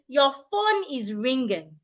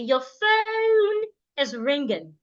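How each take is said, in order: First: The vowel in 'phone' is plain and steady. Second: The vowel in 'phone' glides to another sound. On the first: The speaker calls it wrong. "An average Nigerian will say" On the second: The speaker calls it right. "You want to start to say"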